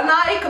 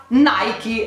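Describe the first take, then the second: First: Nike said "naik"; Nike in one syllable. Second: Nike said "naiki"; Nike with final ee. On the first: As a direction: drop the final e of Nike. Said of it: "non ci prendiamo più". (Nike detto "naik") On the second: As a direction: stretch Nike to two syllables, NAI-ki. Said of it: "ma ci prendiamo". (Nike detto "naiki") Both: Shown as a demonstration.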